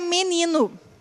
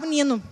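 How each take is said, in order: First: It has a Brazilian accent, first vowel clear. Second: It has a European accent, first vowel swallowed.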